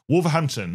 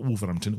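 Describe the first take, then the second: First: Wolverhampton with the H sounded, pitched up; non-local pronunciation. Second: Wolverhampton in Black Country accent, H dropped. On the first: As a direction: say "Wolverhampton" carefully, pronouncing the H in "hampton". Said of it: "without saying it in a Black Country accent". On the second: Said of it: "saying it in a Black Country accent". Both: Shown as a demonstration.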